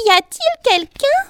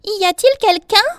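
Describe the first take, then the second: First: Very high, loud shouted question; crying out louder. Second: High, loud calling question. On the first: Bee asks once more who is there, louder high cry. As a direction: shout it at a much higher pitch. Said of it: "cria de nouveau, mais plus fort". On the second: Bee calls to whoever is in her bed, high cry. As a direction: call out under the covers. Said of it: "et cria". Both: A narrator's reading.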